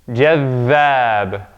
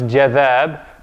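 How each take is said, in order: First: The dh sound is held long and doubled. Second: The dh sound is short and single. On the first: The speaker calls it right. "the dhal gets doubled. We stay on that one" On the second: The speaker calls it wrong. "not just jadhab"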